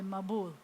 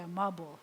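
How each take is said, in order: First: The stress is on the last syllable. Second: The stress is on the first syllable.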